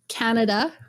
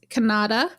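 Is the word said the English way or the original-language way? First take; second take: English; original-language. First: It is said with the usual English pronunciation. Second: It is said with the original-language pronunciation. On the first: "the biggest one is Canada" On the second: "if you say it properly"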